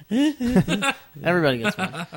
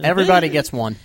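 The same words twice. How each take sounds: First: Slow, laughing repeat. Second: Said in the usual way. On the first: Real, not acted. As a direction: say it again through a laugh.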